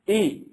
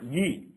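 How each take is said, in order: First: The vowel starts cleanly without a 'y' glide. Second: The vowel starts with a 'y' glide before it. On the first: The speaker calls it right. "this is E" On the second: The speaker calls it wrong. "not E"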